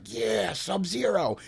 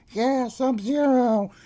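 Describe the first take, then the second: First: Slow, dragged-out lone cheer; mock a lonely fan cheering in the back; half-hearted cheer. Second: Higher, slow, drawn-out echoing cheer; distant fan cheer. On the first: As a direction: moviegoer cheering from the back of an empty theater, slow and drawn out. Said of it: "and I was like". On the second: Retold or imitated. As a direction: imitate a far-off guy calling back, stretched. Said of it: "some other guy down front was like".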